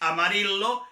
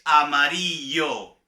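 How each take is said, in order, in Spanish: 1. La ll no suena como y. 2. La ll suena como y. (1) "no es amarillo" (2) "es amarillo"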